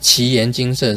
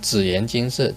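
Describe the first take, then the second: First: The first syllable is pronounced like qi. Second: The first syllable is pronounced like zi. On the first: The speaker calls it right. "其实是奇岩金色" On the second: The speaker calls it wrong. "我以前老是讲紫岩金色"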